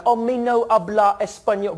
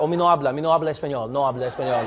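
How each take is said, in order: First: Mangle the Spanish like a clueless tourist; worst Spanish accent. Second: Low, smooth Spanish pronunciation; fluent Spanish accent. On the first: Shown as a demonstration. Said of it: "in the worst way you can". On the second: Retold or imitated. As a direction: rattle off the disclaimer like fluent Spanish. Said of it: "But instead I was like".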